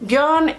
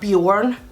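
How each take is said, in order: First: The vowel is a front rounded ö sound. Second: The vowel is a plain back o sound. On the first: It is a name and also means bear. The speaker calls it right. "Björn is a Swedish name" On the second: It means nothing in Swedish. The speaker calls it wrong. "it's not Bjorn"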